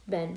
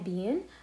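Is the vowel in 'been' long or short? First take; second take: short; long. First: The vowel is short, like 'bin'. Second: The vowel is long, like 'bean'. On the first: The speaker calls it right. "actually it is supposed to be pronounced بن" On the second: The speaker calls it wrong. "مو كثير ينطقونها بين"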